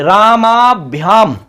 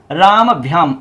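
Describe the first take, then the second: First: रामाभ्याम drawn out slowly with a long aa after राम; correct form demo. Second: रामभ्याम said slowly with a short first a, as the exam's trick spelling; wrong form demo. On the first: Teacher shows students the correct रामाभ्याम, slow and clear. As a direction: stretch रामाभ्याम, lean on the long aa. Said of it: "ऐसा बनेगा". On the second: Teacher shows students the wrong exam option रामभ्याम, slow. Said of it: "ऐसे लिख देते हैं रामभ्याम". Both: Shown as a demonstration.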